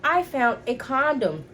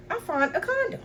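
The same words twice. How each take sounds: First: "I found a condom" drawn out slowly, higher than usual; emphatic reveal. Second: Very high-pitched, incredulous squeak; shocked reveal. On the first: Repeats the shocking find. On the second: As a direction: drop the bombshell in a high voice. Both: Retold or imitated.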